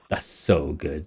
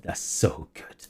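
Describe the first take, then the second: First: Quiet delight. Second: Breathless whisper; whispered delight. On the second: DM delighting at the player's answer, whispered. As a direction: breathe it out in awe. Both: Real, not acted.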